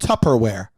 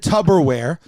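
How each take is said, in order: First: "Tupperware" with a crisp P, TUP-per-ware; P not B. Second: "Tupperware" said as "Tubberware". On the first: Shown as a demonstration. Correcting a friend who says tub, clear P in "Tupperware". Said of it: "It's pea-, peas". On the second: Retold or imitated. Teasing a friend's lifelong mistake, "Tupperware" with a B. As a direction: put a B in "Tupperware", like tub. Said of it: "Did he say tub?".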